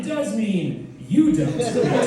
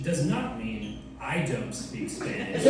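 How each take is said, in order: First: "you" hit high and loud; stress on YOU. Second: "I" picked out, slow and measured; stress on I. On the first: Comedian revealing the true translation, higher and louder on "you". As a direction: punch "you" as the real meaning. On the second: Comedian explaining the mistranslation, slowly with stress on "I". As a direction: set "I" apart as the wrong meaning. Contrasting two meanings of phrase. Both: Shown as a demonstration.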